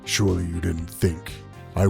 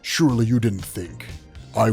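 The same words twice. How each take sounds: First: The voice is deep and menacing. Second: The voice is ordinary, not deep or menacing. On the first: The speaker calls it right. "it has to be something deep, right? Something deep and like just menacing" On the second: The speaker calls it wrong. "that is the lamest bat that's the lamest Apocalypse voice ever"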